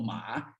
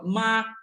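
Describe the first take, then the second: First: The syllable has the dipping third tone. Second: The syllable has the high level first tone. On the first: The word means horse. "Terceiro tom, má, cavalo" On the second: The word means mother. "primeiro tom, mãe"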